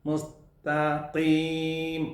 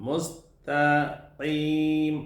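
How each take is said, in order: No difference in how they are said.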